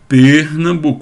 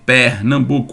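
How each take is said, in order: First: The e in the first syllable is closed. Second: The e in the first syllable is open. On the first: This is how people from another region say it. "Eles diriam Pernambuco, uma emissão fechada" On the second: This is how people from the speaker's region say it. "nós diríamos possivelmente esse som aberto"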